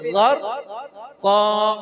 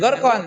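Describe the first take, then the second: First: The word ends with a lengthened vowel, no n. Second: The word ends with a short vowel and n. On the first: The speaker calls it right. "tapi ghor ko" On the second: The speaker calls it wrong. "Jangan gorkon"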